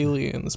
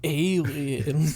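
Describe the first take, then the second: First: The word is said with a soft ending. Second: The word is said with a hard R sound. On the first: "you say aliens" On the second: "if you drop like a hard R"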